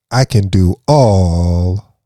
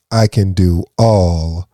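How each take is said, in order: Both takes have the same delivery.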